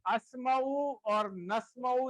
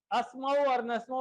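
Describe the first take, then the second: First: اسمعو and نسمعو said slowly, ending in an open u with no n; no final n. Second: Said in the usual way. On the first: Shown as a demonstration. Teacher correcting students, slowly says اسمعو and نسمعو without final n. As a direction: carefully end اسمعو and نسمعو on u, never adding n. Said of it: "اس کے آخر میں نون نہیں آئے گی". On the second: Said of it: "نون نہیں بولنا آخر میں".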